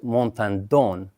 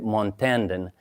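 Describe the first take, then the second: First: Said the South American way, stress on the end. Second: Said the American way. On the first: "in South America, it is pronounced Montandon with accent on the end" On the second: "the Americans say Montandon"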